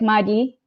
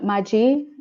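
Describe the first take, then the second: First: The middle consonant sounds like a soft dy. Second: The middle consonant sounds like an English j. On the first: The speaker calls it right. "it's like D Y I as a pronunciation" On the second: The speaker calls it wrong. "but it's not Maji"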